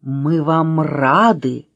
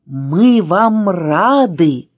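First: Slow, drawn-out greeting; glad welcome. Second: Very slow, louder echoed greeting; echoing welcome. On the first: Letter Ы welcomes Аля to tea, drawn-out greeting. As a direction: greet the guests unhurriedly. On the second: Letter Ы echoing the welcome, louder and very drawn-out. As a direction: stretch every word, louder, like an echo. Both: A narrator's reading. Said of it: "вторила буква".

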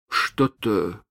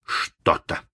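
First: Hesitant, faltering Что-то; unsure. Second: Breathless, whispered Что-то; hushed echo. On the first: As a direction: say Что-то haltingly, shaken. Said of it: "произнёс он неуверенно". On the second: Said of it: "повторил Малинс". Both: Acted.

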